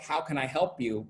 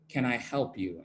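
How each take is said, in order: First: It sounds friendly and welcoming. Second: It sounds cold and suspicious.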